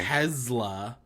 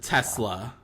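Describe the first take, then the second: First: The middle consonant is a buzzing Z sound. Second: The middle consonant is a hissing S sound. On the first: The speaker calls it wrong. "Z instead of" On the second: The speaker calls it right.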